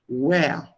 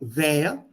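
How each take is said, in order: First: It begins with a rounded-lip W sound. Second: It begins with a lip-to-teeth V sound. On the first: The speaker calls it right. "In English, the W is with just a rounded lips" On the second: The speaker calls it wrong. "not where"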